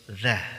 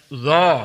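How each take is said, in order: First: The syllable sounds thin with spread lips. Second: The syllable sounds heavy with rounded lips. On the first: The speaker calls it right. "Cukup senyum" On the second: The speaker calls it wrong. "itu tebal"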